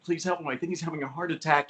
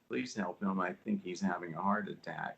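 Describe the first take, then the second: First: It is said urgently, with alarm. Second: It is said flatly, with no emotion. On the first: The speaker truly means the plea. The speaker calls it right. "a line that's you know very urgent" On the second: The reader is only reading the words. The speaker calls it wrong. "we call that cardboard"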